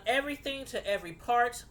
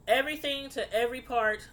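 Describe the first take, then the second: No difference in how they are said.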